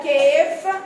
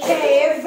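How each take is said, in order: First: كيف ending on an unvoiced F; mispronunciation with F. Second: كيف ending on a buzzed V, loud; clear V ending. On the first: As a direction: say كيف with f in place of the final v. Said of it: "محدش يقولها كيف". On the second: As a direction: say كيف as cave, with a voiced v. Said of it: "الكلمات اللي عندنا حرف ال V". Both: Shown as a demonstration.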